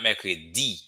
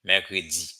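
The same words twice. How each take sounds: First: Mercredi with a plain d; teacher shows the wrong mercredi. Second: Mercredi with d softened to z; teacher gives the correct mercredi; right mercredi. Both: Shown as a demonstration. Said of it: "Not mercredi".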